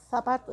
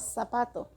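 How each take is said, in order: First: The first consonant is a 'th' sound. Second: The first consonant is an 's' sound. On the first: "Nosotros no decimos zapato" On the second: "lo pronunciamos como S"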